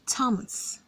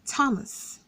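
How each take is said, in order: No difference in how they are said.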